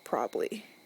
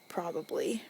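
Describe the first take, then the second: First: A syllable is dropped, sounding like probly. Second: All three syllables are pronounced in full. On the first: "I always say probably... I shorten it... P R O B L Y" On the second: "the right way to say this would be"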